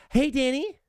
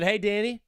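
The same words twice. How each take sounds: First: Hey, Danny said much higher with a rising lilt; teasing high greeting. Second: Said in the usual way. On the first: Pretend. Host teasing coach Dan Campbell with a high, rising greeting. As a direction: sing Hey, Danny up high to tease him. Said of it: "or if I said it like this". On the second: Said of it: "If I said".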